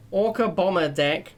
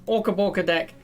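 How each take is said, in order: First: Said in the usual way. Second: "Orca Borka", playfully mangling Bomber. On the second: Shown as a demonstration. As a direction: say "Borka" with an r, Bor-ka instead of Bomber. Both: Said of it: "Orca Borka".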